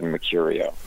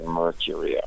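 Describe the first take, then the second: First: The first R sound is left out. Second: The first R sound is clearly pronounced. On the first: This is how the family says the name. "my family never pronounce the first R. We've always said Mercurio" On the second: This is how the family never says the name. "We've never said Mercurio"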